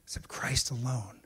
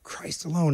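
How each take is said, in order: First: Hushed whisper on Christ alone. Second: Said in the usual way. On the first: Real, not acted. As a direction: drop to a breath on the truth. Hushed emphasis on the key point.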